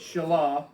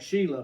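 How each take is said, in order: First: The name does not sound like 'Sheila'. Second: The name sounds like the name 'Sheila'. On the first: The speaker calls it right. "it's Shelah" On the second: The speaker calls it wrong. "some folks might pronounce that Sheila"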